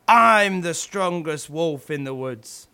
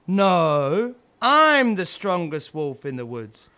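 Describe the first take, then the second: First: Lightly voiced wolf, louder, proud boast. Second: A different, lightly voiced wolf, louder; rival wolf boasting. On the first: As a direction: puff up like the biggest wolf in the woods. Two wolves boasting, competing. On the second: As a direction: outdo the other wolf's boast.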